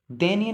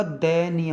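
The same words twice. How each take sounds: First: दयनीय said "deniya"; wrong "de" start. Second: Said in the usual way. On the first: Shown as a demonstration. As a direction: open दयनीय with a narrow "de", not "dai". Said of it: "नहीं होगा". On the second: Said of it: "होगा".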